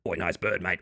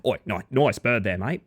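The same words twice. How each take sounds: First: Low, soft Australian bloke voice; put-on low Aussie mate voice; rarely heard voice. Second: Put-on playful broad Australian accent at usual volume; casual Australian call to a mate; more Australian. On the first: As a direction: drop deep and quiet into broad Aussie. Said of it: "That's a voice that doesn't come out often". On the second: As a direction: thicken the Aussie twang. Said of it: "It's turning me more Australian".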